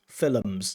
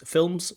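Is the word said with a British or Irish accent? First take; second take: Irish; British. First: The word is said with an Irish accent. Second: The word is said with a British accent. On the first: "Cantor pronounces it films, it's a very kind of Irish pronunciation" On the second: "in British English, we usually use this films"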